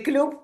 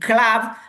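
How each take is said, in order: First: The vowel sounds like a rounded 'oo'. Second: The vowel sounds like an open 'uh'. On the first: The speaker calls it wrong. "in Spanish we say the club" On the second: The speaker calls it right. "it is pronounced like an a, like in club"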